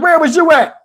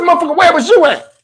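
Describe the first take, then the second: First: Steve asking. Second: High, mock outraged retort; indignant comeback. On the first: Retold or imitated. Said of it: "My man Steve was like". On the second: Answering friend Steve who asked where he was: indignant mock anger. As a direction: fire the question back at him, offended. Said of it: "I said".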